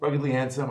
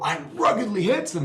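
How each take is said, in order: First: It is said flatly with little energy. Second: It is said with lots of energy.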